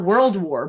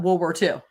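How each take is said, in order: First: "World War" with the l and d sounded; standard pronunciation. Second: "World War Two" as wor-wor-two, no ld; slurred pronunciation. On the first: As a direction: say "World War" in full, louder. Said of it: "Not World War, but". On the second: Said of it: "but World War Two". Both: Shown as a demonstration.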